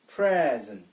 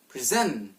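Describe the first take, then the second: First: The stress is on the first syllable. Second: The stress is on the second syllable. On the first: It means this moment or a gift. "an example of a two-syllable noun" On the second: It means to give or to show. "where the stress is applied at the second syllable"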